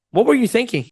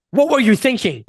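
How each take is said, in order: First: Caring, curious question; pitched up, open-minded asking; great tonality. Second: Aggressive, attacking question; bad tone. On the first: Coach showing average wording with great tonality, caring. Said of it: "but with great tonality". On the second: Coach showing average wording with bad tonality, attacking. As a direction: accuse them, pitched up. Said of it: "with the same tonality". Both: Shown as a demonstration.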